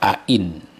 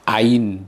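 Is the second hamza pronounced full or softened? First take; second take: full; softened. First: The second hamza is pronounced fully and distinctly. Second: The second hamza is softened, blending toward a y. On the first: "boleh dibaca at-tahqiqu, tahqiq, a in. Jadi dieksplisitkan semua" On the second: "Tashil itu hamzanya itu dilafalkan digabung dengan ya"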